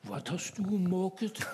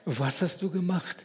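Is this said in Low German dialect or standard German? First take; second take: Low German; standard German. First: It is spoken in Low German dialect. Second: It is spoken in standard German.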